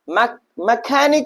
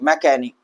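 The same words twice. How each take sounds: First: An h sound is heard after the k. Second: No h sound is heard after the k. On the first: The speaker calls it wrong. "नहीं पढ़ेंगे" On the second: The speaker calls it right. "हम पढ़ेंगे भैया"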